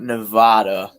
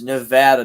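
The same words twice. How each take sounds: First: The middle syllable has a vowel unlike 'add'. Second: The middle syllable has the vowel of 'add'. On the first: "not Nevada" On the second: "I say it with the ad too"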